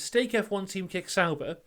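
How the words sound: It is said as one unbroken phrase.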